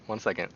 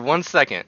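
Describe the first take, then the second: First: Said in the usual way. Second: Light cutesy streamer voice; a touch of anime sweetness. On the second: Pretend. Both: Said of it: "You sound like a VTuber in denial".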